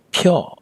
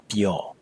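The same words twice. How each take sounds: First: Pyo with a puff of air after the p; aspirated P in pyo; wrong aspirated p. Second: Pyo with an unaspirated p, as in Spain. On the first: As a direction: say pyo with the English p of pain. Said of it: "It's not pyo". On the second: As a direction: say pyo with no puff of air on the p. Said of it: "is the pa sound you make in words like Spain". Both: Shown as a demonstration.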